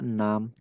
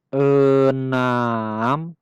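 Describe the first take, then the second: First: The word is said quickly and briskly. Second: The word is said very slowly and drawn out. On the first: "Dengan sedikit kecepatan" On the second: "kita ucapkan dengan lambat sekali"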